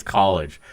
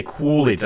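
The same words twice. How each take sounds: First: "college" in the speaker's usual way; own pronunciation. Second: "Coolidge" with the first vowel drawn toward "oo"; exaggerated pronunciation. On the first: Shown as a demonstration. Answering people about his accent, own plain "college". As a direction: say "college" plainly, without an "oo" vowel. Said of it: "To me, it's college". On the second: Quoting people who remark on his word, exaggerated "Coolidge". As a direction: mimic people hearing "Coolidge" for college. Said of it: "there's certain words I say".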